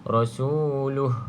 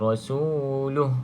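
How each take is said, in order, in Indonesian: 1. Kata ini berakhir pendek pada bunyi h saja. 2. Kata ini berakhir pendek pada bunyi h saja.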